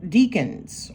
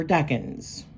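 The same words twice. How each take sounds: First: "deacons" with a long EE first vowel; alternative pronunciation. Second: "decans" with a short E, DECK-unz; supposed pronunciation. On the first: Host offering two ways to say the zodiac term, long-EE version. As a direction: say "deacons" like DEE-kunz. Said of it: "supposed to be pronounced decans". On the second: Host correcting herself on the zodiac term, short-E version. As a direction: say "decans" with first syllable like deck. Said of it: "It's supposed to be pronounced decans". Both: Shown as a demonstration.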